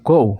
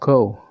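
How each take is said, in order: First: It is said in a higher, sharper pitch. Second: It is said in an ordinary, level pitch. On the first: The speaker is angry. "in higher tone" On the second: The speaker is not very angry. "saya ngomongnya dengan nada yang biasa saja"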